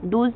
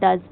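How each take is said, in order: First: The vowel is a long oo sound. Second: The vowel is a short uh sound. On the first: The speaker calls it wrong. "डूज नहीं" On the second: The speaker calls it right. "इसको हम जल्दी से बोलते हैं डज"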